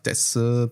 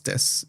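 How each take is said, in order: First: The final u vowel is sounded. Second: The final u vowel is dropped.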